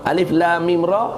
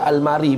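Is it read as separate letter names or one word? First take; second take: separate letters; one word. First: Each letter name is said separately. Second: The letters are run together as one word. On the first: The speaker calls it right. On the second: The speaker calls it wrong.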